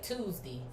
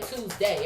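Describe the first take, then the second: First: The final syllable is said like 'dee'. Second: The final syllable is said like 'day'. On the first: This is how a relative says it. "That's what my dad say. He say Tuesday. Everything is D" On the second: This is how that relative does not say it. "He don't say Tuesday"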